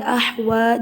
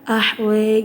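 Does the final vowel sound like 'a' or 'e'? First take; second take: a; e. First: The final vowel is a plain open 'a'. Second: The final vowel is tilted toward an 'e'. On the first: "ahwa jadi ahwe" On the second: "ahwa jadi ahwe"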